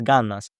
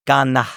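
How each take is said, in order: First: "ganas" with the final S clearly said; full S. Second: "gana" with the final S dropped. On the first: Teacher giving the full textbook form. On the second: Teacher imitating the native dropping the S. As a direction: say "ganas" as "gana", no S. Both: Shown as a demonstration. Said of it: "even though it's".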